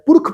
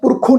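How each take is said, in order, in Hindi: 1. शब्द व्यंजन पर ही खत्म होता है, कोई स्वर नहीं। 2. शब्द के अंत में अनुनासिक ओ स्वर जुड़ा है। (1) "ਪੁਰਖ ਪੜਿਆ ਨਾ ਜੀ" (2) "ਅਸੀਂ ਪੁਰਖੋਂ ਨਹੀਂ ਪੜਿਆ"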